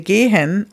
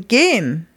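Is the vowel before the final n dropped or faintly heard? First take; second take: faint; dropped. First: The vowel before the final n is faint. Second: The vowel before the final n is dropped. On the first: "We don't say this last E before the N very much" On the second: "or maybe sometimes not at all. ... or even gehen"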